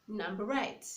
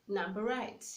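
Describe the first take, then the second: The two takes are said the same way.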